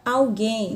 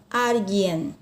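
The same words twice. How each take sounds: First: ALGUÉM stressed on the nasal last syllable; Portuguese stress. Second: ALGUIEN stressed on AL, ending in n; Spanish stress. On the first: Teacher gives the Portuguese example, stress on GUÉM. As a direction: say ALGUÉM as "aw-GHEIN". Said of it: "Na língua portuguesa eu tenho a palavra". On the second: Teacher contrasts the Spanish word, stress on AL. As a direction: hit the AL of ALGUIEN. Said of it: "na língua espanhola". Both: Shown as a demonstration.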